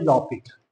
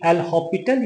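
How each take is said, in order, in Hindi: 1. L पहले syllable के साथ जुड़ जाता है। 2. L नाम से पहले एक अलग सिलेबल है। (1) "या फिर लॉपिटल" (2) "डे एल हॉपिटल"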